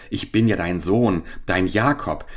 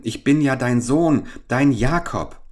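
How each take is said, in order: First: Indignant repetition of another's claim; understated scorn, no pleading in it; scornful quoting. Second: High, urgent plea of a son; earnest, insistent entreaty, pitched up; pleading. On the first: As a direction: quote the claim back in disbelief. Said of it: "Sprich zu mir". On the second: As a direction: beg your mother to recognise you. Son pleads; mother later mimics him. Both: A narrator's reading.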